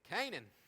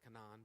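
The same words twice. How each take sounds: First: It uses the common, everyday pronunciation. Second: It uses the technical, formal pronunciation. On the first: This is how most people say it. "but we all say Canaan" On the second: This is the strictly correct form. "technically it's Canaan"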